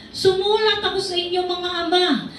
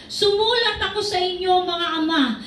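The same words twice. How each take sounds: No difference in how they are said.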